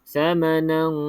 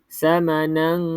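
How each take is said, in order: The two takes are said the same way.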